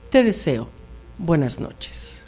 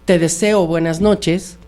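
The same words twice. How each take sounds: First: There is a pause after 'te deseo'. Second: It is said as one phrase without a pause. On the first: Saying 'I desire you', then saying good night. "Cambia todo el sentido una coma" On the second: Wishing someone a good night. "no es lo mismo que yo diga"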